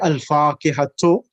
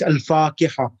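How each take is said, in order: First: The word ends with a full 'tu' syllable. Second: The word ends with a soft 'h' sound. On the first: The reading continues without stopping. "If you're gonna continue reading" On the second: The reading stops at this word. "the time marbuta can change into a ha"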